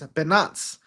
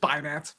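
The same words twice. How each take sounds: First: The name is said with French-style sounds. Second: The name is said with plain English sounds. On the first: This is claimed as the original, luxurious name. "the actual pronunciation of Binance is Binance because it was originally created in France" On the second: This is the common way people say the name. "everyone kept saying it wrong, so like, you know what? It's Binance"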